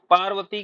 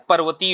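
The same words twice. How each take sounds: First: पार्वती with a long "aa" in the first syllable; wrong pronunciation. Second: पर्वती with a short "a" in the first syllable; correct pronunciation. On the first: Teacher questions students about the mistaken form, mispronounced. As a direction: open with a long "paar" in पार्वती. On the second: Teacher answers with the right form, correctly pronounced. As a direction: open with a brief "par" in पर्वती. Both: Shown as a demonstration. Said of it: "की जगह क्या होता है".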